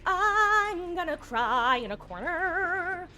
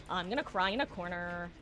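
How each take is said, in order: First: Sung, drawn-out, higher singsong lament; sung, mock wail. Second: Low, soft, defeated repeat; dejected mumbling. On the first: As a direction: wail it slowly, half singing. Mock wailing, then repeated quietly. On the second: Pretend. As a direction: sink into a quiet, low lament. Same words, repeated dejectedly.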